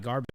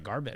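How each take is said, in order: First: The name ends without a t sound. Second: The name ends with a t sound. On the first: The speaker calls it wrong. "There's no way that's how you pronounce his name" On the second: The speaker calls it right. "How would you pronounce that? Garbett, right?"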